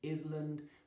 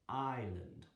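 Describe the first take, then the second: First: The S sound is pronounced in the word. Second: The S sound is silent in the word. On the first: The speaker calls it wrong. "you don't say it island" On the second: The speaker calls it right. "The S is silent"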